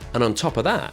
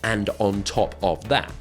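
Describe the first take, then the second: First: The words are squashed together into one flow. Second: Each word is said separately and carefully. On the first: The speaker calls it right. "We squash it together" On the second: The speaker calls it wrong. "we don't say it in such a"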